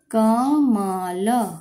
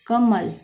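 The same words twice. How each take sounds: First: कमल stretched very slowly; sounding out slowly. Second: Said in the usual way. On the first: Shown as a demonstration. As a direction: draw out कमल syllable by syllable.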